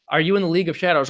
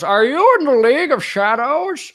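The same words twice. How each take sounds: First: Said in the usual way. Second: High, loud, drawn-out theatrical question; put-on villain voice. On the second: Streamer replays a viewer's question, high loud theatrical voice. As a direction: ask it slowly in a pitched-up character voice.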